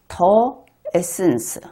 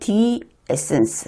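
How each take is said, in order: First: 'The' is said with a 'thuh' vowel. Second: 'The' is said with a 'thee' vowel. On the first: "우리는 그냥 철자니까 그냥 더라고 합시다" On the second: "영어 발음은 the essence 해야 될"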